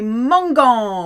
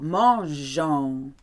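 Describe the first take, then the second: First: The g is said as a hard sound. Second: The g is said as a soft sound. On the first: The speaker calls it wrong. "Otherwise it would say mangon, which doesn't sound very nice" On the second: The speaker calls it right. "to keep that G beautiful and soft"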